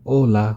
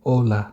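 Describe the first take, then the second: The two takes are said the same way.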